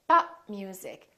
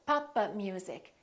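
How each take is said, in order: First: The p is held without release. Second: The p is released, adding an extra vowel. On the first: The speaker calls it right. "Three syllables" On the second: The speaker calls it wrong. "It sounds almost like four syllables"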